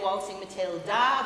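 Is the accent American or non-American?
non-American. It is said without an American accent. The speaker calls it wrong. "we don't say Waltzing Matilda"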